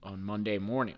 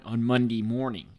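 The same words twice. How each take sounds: First: Said in the usual way. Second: "Monday morning" in a Baltimore accent. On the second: Shown as a demonstration. Host redoing "Monday morning" as said in Baltimore, local accent. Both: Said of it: "as they would say in Baltimore".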